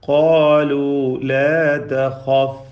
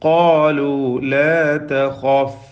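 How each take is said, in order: Both takes have the same delivery.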